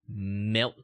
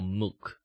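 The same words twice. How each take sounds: First: "milk" with a clear short e, like "melk"; plain pronunciation of milk. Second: "milk" said like "mook", L swallowed; British-style milk. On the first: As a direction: say "milk" with its L sounded. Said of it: "Do you guys pronounce milk or milk?". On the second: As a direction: turn "milk" into a rounded "muk". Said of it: "They keep calling it milk". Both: Shown as a demonstration.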